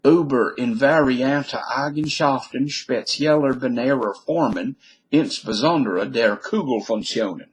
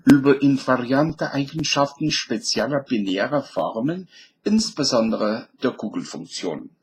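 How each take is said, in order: First: German title read out in an American accent; original German. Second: German read in a southern accent. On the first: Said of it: "here it is in the original language". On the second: Lecturer rereads the German title for fun, southern accent. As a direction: put on a southern German accent with rolled sounds. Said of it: "And now in a southern accent". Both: Shown as a demonstration.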